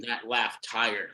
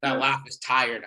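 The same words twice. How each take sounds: First: "that laugh tired" drawn out low and soft; weary slowed-down "that laugh tired"; slow, tired-sounding. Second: Said in the usual way. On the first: Shown as a demonstration. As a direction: let "that laugh tired" sag slowly, drained. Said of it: "for making that laugh tired".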